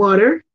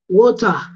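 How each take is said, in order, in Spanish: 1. Se dice con acento estadounidense. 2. Se dice con acento británico. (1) "en América dicen water" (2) "los británicos dicen water"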